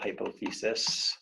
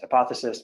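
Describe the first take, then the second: First: Each syllable is pronounced carefully, as it is spelled. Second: The word is said in its ordinary, relaxed way. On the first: It helps with spelling the word correctly. "I need to say it that way to spell it right" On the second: This is how the word is normally said. "usually pronounced hypothesis"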